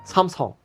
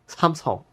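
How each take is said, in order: Both takes have the same delivery.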